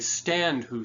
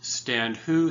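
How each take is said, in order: First: The stress falls on stand, not who. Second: The stress falls on who, not stand. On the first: The speaker calls it right. "we say ... which creates a dipping effect" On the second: The speaker calls it wrong. "we don't say"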